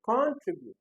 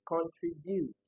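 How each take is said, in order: First: "contribute" with the first syllable punched high and loud; wrong stress. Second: "contribute" drawn out evenly, without a punched first syllable; correct option stress. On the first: Teacher rejecting an option, first-syllable stress on "contribute". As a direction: hit CON hard in "contribute", then drop. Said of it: "Definitely not". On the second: Teacher giving the answer, later-syllable stress on "contribute". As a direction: let "contribute" run slowly through to its later syllables. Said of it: "It's contribute, right?". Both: Shown as a demonstration.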